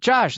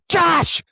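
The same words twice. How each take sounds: First: The name is said politely at normal volume. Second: The name is screamed loudly.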